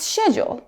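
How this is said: It is said in a British accent. "But in the U K, it's schedule"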